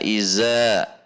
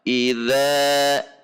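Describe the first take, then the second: First: The middle consonant is a plain 'z' sound. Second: The middle consonant is a soft 'dh' sound. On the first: The speaker calls it wrong. "Tidak dibaca iza" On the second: The speaker calls it right. "Perhatikan sifat dan makhraj huruf zal"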